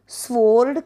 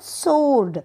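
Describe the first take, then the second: First: The w sound is pronounced after the s. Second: The w sound is left out after the s. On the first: The speaker calls it wrong. "स्वोर्ड कधीही बोलत नाहीत" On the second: The speaker calls it right. "काय म्हणतात? सोर्ड"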